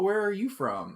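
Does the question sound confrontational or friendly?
friendly. The question sounds warm and curious. The asker is simply interested.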